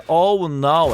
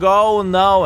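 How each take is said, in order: First: A little louder, mock panicked oh no. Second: Higher, louder hammed-up cry of panic; mock scream. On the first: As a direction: play the panicking enemy lightly. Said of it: "full panic mode is saying". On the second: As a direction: yell oh no like a doomed enemy. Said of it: "Ergashem is screaming".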